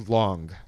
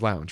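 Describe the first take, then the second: First: The word is said with an 'ong' sound. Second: The word is said with an 'ounge' sound. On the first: This is how the band says it. "they say long" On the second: This is how the speaker expects it to be said. "it's supposed to be Chase Lounge"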